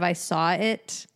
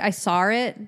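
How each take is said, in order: First: It is said with a standard accent. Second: It is said with a Boston accent. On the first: "instead of" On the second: "sometimes you'll say like"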